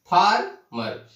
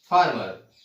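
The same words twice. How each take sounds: First: "farmer" split slowly, a pause between फार and मर; in two parts. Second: Said in the usual way. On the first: Shown as a demonstration. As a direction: break "farmer" into two beats. ("Farmer" को दो बार में, धीरे) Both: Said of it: "इसको दो बार में बोल रहे हैं".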